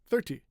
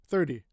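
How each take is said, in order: First: The middle consonant is a clear, crisp T. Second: The middle consonant sounds almost like a D. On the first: The speaker calls it wrong. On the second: The speaker calls it right.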